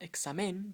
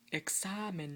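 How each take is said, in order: First: The stress is on the last syllable. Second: The stress is on the middle syllable. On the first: The speaker calls it wrong. "not examen" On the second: The speaker calls it right. "you say examen, so it still falls on the second to last syllable"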